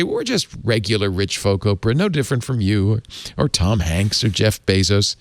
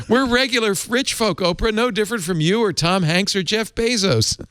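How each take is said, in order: First: A hint of an Irish lilt, read at speaking pitch; bad Irish accent. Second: Mock Irish accent pitched much higher, stress on We're; a high, hammed-up Irish lilt for the couple's quote; bad Irish accent. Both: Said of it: "I apologize for my bad Irish accent".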